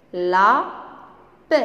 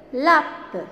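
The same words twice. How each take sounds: First: "Lape" split into a drawn-out la, pause, pe; syllable by syllable. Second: Said in the usual way. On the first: Shown as a demonstration. Teacher leading pupils in reading words, syllable by syllable. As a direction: sound out "Lape" as la... pe. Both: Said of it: "on va lire ensemble des mots".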